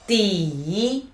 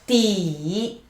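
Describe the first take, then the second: No difference in how they are said.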